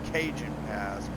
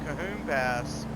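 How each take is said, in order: First: The middle consonant is a J sound. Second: The middle consonant is an H sound. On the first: The speaker calls it wrong. "I was pronouncing that wrong" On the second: The speaker calls it right. "It's called the Cahoon Pass"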